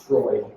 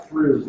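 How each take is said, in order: First: Freud said "Froyd", with an oy vowel; Freud pronounced properly. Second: Freud said "Frood", with an oo vowel; Freud as it looks. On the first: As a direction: say Freud to rhyme with Lloyd. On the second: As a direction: misread Freud to rhyme with food. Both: Shown as a demonstration. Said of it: "it's pronounced Freud".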